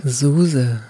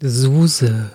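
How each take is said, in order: First: Low, drawn-out hotline announcer name; phone menu voice. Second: Low, drawn-out hotline announcer; phone menu voice. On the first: Shown as a demonstration. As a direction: repeat it like a recorded phone greeting. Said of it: "Sag das nochmal". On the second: Acted. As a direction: say your name like a recorded phone greeting. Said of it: "für diesen etwas, äh, Telefonansagen-Sound".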